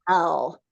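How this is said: The word is said with a pushy charge. "Now say it with a little charge, like"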